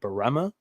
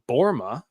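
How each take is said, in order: First: The name is said with three syllables. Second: The name is said with two syllables. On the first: This is how everyone said the name before. The speaker calls it wrong. "everybody's been out pronouncing it Barema" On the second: This is the corrected way to say the name. The speaker calls it right. "Borma is how you pronounce his last name"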